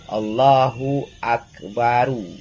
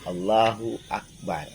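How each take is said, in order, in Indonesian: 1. Kata terakhir diakhiri dengan vokal u tambahan. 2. Kata terakhir berakhir dengan bunyi r sukun. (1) "Jangan bacanya"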